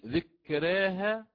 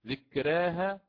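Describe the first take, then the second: No difference in how they are said.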